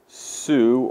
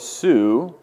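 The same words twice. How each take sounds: First: The word is said unstressed, leaning on neighbors. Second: The word is said with its own accent. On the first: The pronoun carries no special emphasis. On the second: The pronoun is emphasized or contrasted.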